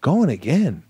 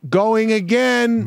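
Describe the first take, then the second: First: Mock-offended actor's reaction; incredulous echo. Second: High, drawn-out announcement; mock director's call. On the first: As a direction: question it as if deeply wounded. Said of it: "in my head, I'm like". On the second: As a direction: sing out the order to the whole set. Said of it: "you can't go "cut".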